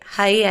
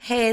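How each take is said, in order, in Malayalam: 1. സ്വരം 'eye' പോലെയുള്ള ദ്വിസ്വരമാണ്. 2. സ്വരം സാധാരണ 'ay' ശബ്ദമാണ്. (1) "ഹൈ അല്ല" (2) "ഹേ എന്ന് പറഞ്ഞാൽ മതി"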